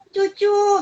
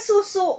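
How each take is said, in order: First: It is said with ch sounds instead of s. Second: It is said with clear s sounds. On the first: It is baby talk. The speaker calls it wrong. "kata-kata yang cedal" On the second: It is the proper word. The speaker calls it right. "betul-betul susu"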